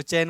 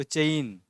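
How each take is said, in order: First: चैन with one open vowel, "chain"; Hindi pronunciation. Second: चैन drawn into "cha-een"; Marathi pronunciation. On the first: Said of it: "आप इसको चैन बोलोगे". (चैन का हिंदी उच्चारण) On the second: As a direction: glide from a to i in चैन. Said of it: "तो मराठी में इसको चैन". (चैन का मराठी उच्चारण) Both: Shown as a demonstration.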